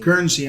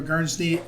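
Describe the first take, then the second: First: "Guernsey" in two syllables, GURN-zee; corrected pronunciation. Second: "Guernsey" with a stray n before the last syllable; mispronounced name. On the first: Host repeating the staffer's name after being corrected, "Guernsey" as GURN-zee. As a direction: say "Guernsey" cleanly as GURN-zee, no extra consonant. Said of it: "How do you say it?". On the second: Host naming the senator's staffer, mispronouncing "Guernsey". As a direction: slip an extra consonant into "Guernsey", like Guernz-nee. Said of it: "I say it wrong". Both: Real, not acted.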